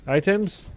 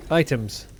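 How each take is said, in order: First: "Items?" asked with a sharp rise, higher and questioning; rising question. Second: "Items." said flat with a falling tune, a plain statement. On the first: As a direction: lift the end of "Items?" into a question. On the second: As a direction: drop the pitch at the end of "Items.". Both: Shown as a demonstration.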